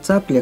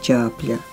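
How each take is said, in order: First: The word begins with a ts sound. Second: The word begins with a ch sound. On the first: "слово «цапля»" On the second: "как «чапля»"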